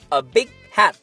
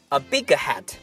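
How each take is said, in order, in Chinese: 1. 'big' 中的 g 是无声保持的。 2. 'big' 中的 g 是清晰地爆破释放的。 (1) "用一个stop，一个停顿去替代它的声音" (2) "千万不要说A big hat，如果你发出g 那个声音"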